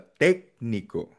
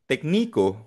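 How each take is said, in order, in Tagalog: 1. Nasa unang pantig ang diin. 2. Nasa ikalawang pantig ang diin. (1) "Ang basa" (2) "pag nilagay mo sa I"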